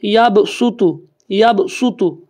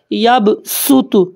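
First: یب سوتو with a thick, heavy ص; heavy saad sound. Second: یب سوتو with a hard, crisp س; یب سوتو drawn out slowly, thin س; sharp s sound. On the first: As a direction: say یب سوتو with a full-mouthed heavy ص. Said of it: "موٹا اس کو پڑھوں". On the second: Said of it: "یہ سین کی آواز ہے". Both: Shown as a demonstration.

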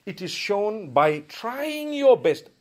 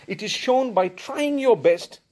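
Both takes have the same delivery.

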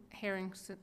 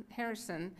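The two takes are said the same way.

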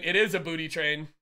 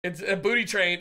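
First: Is hit firmly in a lower voice; confirming It IS a booty train; stress on is. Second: Said in the usual way. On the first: Shown as a demonstration. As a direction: land hard on is.

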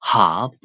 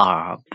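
First: Herb with a firmly sounded H, like "hub"; British herb. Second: Herb with silent H, like "up"; American herb. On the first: Teacher contrasts the forms, herb with sounded H. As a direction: start herb on a clear H, British style. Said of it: "U K လို့ခေါ်တဲ့ British accent". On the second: Teacher contrasts the forms, herb with silent H. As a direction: start herb straight on the vowel. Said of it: "H အတန်လေးကိုဖျောက်". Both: Shown as a demonstration.

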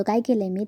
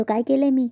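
First: Said in the usual way. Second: Higher, louder protest on काय केलंय मी; indignant outburst. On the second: A narrator's reading. Ashu stepping toward Shiva, protesting higher and louder. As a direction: push the question out, hurt and defensive. Ashu steps forward, quarrel.

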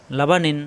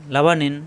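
No difference in how they are said.

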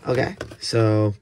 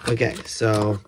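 No difference in how they are said.

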